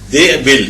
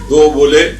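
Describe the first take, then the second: First: Both syllables have an i vowel. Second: Both syllables have a u vowel. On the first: "दाल के नीचे भी जेर है, बे के नीचे भी जेर है" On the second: "दाल के ऊपर भी पेश, बे के ऊपर भी पेश"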